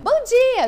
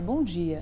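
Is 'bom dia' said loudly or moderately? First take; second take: loudly; moderately. First: It is said loudly and forcefully. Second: It is said at a moderate, gentle volume. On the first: The speaker calls it wrong. "Não é bom dia" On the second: The speaker calls it right.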